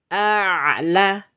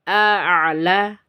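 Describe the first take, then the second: Both takes have the same delivery.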